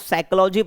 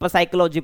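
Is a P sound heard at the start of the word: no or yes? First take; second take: no; yes. First: The word begins with an S sound. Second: The word begins with a P sound. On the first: The speaker calls it right. "इसको साइकोलॉजी पढ़ रहे हैं" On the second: The speaker calls it wrong. "ना कि साइकोलॉजी पढ़ रहे हैं, नहीं पढ़ रहे ना भाई"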